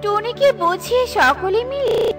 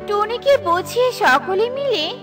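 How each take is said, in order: Both takes have the same delivery.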